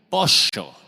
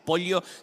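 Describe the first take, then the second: First: It is said with an Argentine accent. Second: It is said with a neutral accent.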